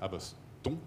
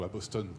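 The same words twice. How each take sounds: First: Boston is pronounced the French way. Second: Boston is pronounced the English way. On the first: "comme on dit les" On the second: "comme on dit en, en anglais"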